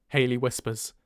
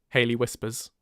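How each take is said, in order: The two takes are said the same way.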